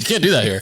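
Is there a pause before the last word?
no. It is said plainly, with no pause.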